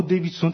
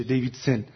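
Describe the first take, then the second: First: دیویدسون as "deyvid-son", full final o; Persian-style دیویدسون ending "-son"; Persianised pronunciation. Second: دیویدسن as "deyvid-sen", weak final e; English-style دیویدسن ending "-sen"; English pronunciation. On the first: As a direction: say دیویدسون with a rounded last vowel. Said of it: "دیویدسون تلفظ نمیشه". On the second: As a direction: say دیویدسن with an unrounded last vowel. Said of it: "تلفظ نمیشه". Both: Shown as a demonstration.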